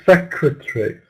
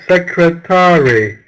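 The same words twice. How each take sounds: First: Some syllables are reduced or dropped. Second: Every syllable is pronounced fully and separately. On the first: "but we're saying secretary" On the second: "We're spelling it secretary"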